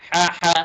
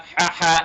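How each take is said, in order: The two takes are said the same way.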